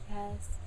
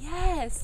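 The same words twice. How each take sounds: First: The word is said softly and quietly. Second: The word is said loudly and with energy. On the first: The speakers feel shy and unsure. "they'll answer really quietly" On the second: The speakers feel confident and enthusiastic. "they got louder and louder"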